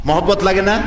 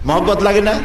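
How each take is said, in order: Both takes have the same delivery.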